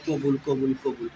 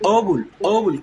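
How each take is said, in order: First: The word is said softly and plainly. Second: The word has a strong bouncing consonant. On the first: The speaker calls it wrong. "আস্তে আস্তে বললে" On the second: The speaker calls it right. "কলকলা উচ্চারণ করতে হবে"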